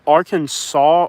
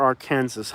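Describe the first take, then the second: First: "Arkansas" said AR-kan-saw; usual pronunciation. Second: "Arkansas" said ar-KAN-zus; spelling pronunciation. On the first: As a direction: end "Arkansas" in "saw", silent final s. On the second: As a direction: say "Arkansas" like "Kansas" with "Ar" before it. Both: Shown as a demonstration. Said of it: "How do you say it?".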